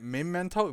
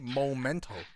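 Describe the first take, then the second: First: The first syllable has an 'eh' vowel. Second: The first syllable has an 'oh' vowel. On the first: The speaker calls it right. "But isn't it Memento? Because it's M-E instead of M-O" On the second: The speaker calls it wrong. "People like to say Momento"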